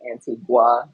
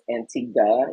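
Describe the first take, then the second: First: The last syllable is a full 'gwa'. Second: The last syllable is a plain 'guh'. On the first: This is how Americans say it. The speaker calls it wrong. "as Americans, we pronounce it phonetically Antigua. It's not a gua" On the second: This is the local way to say it. The speaker calls it right. "I learned that it is pronounced Antigua"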